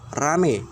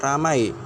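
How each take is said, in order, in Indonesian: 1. Kata ini berakhir dengan vokal tunggal 'e'. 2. Kata ini berakhir dengan diftong 'ai'. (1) "sering diucapkan menjadi kata rame" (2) "vokal rangkap a, i"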